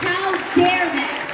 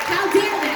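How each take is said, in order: First: Slow, drawn-out outrage; slow, indignant how dare they. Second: Quicker indignant repeat; quick outraged how dare they. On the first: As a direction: let each word land, slowly. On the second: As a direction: fire it off again in outrage. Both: Real, not acted. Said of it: "I was immediately furious".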